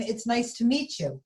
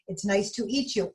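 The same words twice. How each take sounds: First: "meet" said carefully as the fix; correction. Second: "eat" said where meet was meant, plain tone; slip of the tongue. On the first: Mister Bing corrects his slip to Arnie, saying "meet". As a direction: correct yourself to "meet you". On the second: Mister Bing greets the donut and slips, saying "eat". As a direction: blurt "eat you" by mistake. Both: Acted. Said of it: "I, I mean".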